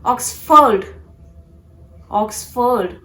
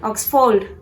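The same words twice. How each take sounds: First: "Oxford" as OX-fuhd; "Oxford" in two distinct syllables; correct Oxford. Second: "Oxford" with a full FORD; mispronounced Oxford. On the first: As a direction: separate OX from a reduced FUHD in "Oxford". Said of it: "to be pronounced as". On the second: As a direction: give a long O in the end of "Oxford". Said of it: "it's not Oxford". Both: Shown as a demonstration.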